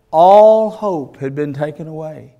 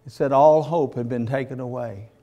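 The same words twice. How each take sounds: First: Louder, stress on all; preacher's loud lament; emphatic preaching. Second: Said in the usual way. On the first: Acted. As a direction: hammer the word all home.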